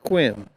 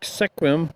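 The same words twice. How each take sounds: First: It is said the way the locals say it. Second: It is read out as the letters suggest. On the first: The speaker calls it right. "but it's Sequim" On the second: The speaker calls it wrong. "It looks like Sequim"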